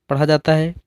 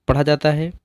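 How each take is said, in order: No difference in how they are said.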